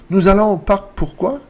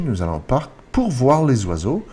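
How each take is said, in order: First: High, loud question lifting on "pourquoi"; rising intonation. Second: Said in the usual way. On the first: Shown as a demonstration. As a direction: make it a question by raising "pourquoi". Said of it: "It's a rising intonation". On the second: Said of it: "Same situation".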